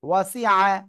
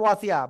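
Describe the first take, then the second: First: A throat sound 'a' is said after 'wasi'. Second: It runs smoothly into 'ya' with no throat sound. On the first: The speaker calls it right. "আইন জবর আয়, ওয়াসি আয়" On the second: The speaker calls it wrong. "এই শব্দটা অনেকে ভুল বলবে। ডাইরেক্ট বলবে ওয়াসিয়া"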